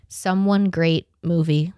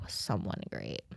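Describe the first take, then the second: First: Said in the usual way. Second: Lower, much softer title mumbled to herself; soft low mutter of Someone Great. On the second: Shown as a demonstration. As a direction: mumble the title under your breath. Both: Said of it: "Someone Great on Netflix".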